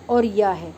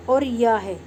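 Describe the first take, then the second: No difference in how they are said.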